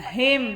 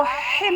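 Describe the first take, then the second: First: "हिम" light at the start, no rasp; correct "him". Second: "हिम" with too much friction at the start; wrong "him". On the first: Teacher gives the corrected reading, light-h "हिम". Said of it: "हा को हिम नहीं पढ़ना". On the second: Teacher warns against this reading, harsh-h "हिम". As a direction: say "हिम" with a hard, rasping throat h. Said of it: "नहीं पढ़ना". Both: Shown as a demonstration.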